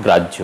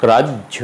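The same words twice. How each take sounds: First: গ্রাহ্য run together; casual গ্রাহ্য without a held stop; everyday pronunciation. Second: গ্রাহ্য split "graj-jho"; গ্রাহ্য with a clear stop before "jho"; held double consonant. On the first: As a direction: say গ্রাহ্য as quick "grajjho". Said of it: "আমরা স্বভাবতই". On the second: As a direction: hold the j in গ্রাহ্য. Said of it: "উচ্চারণ হবে". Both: Shown as a demonstration.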